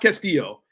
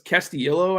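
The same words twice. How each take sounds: First: The name is said without the extra syllable. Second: The name is said with an extra syllable. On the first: The speaker calls it wrong. "It's not Castillo" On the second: The speaker calls it right. "there's an extra syllable. ... It's Castillo, I think"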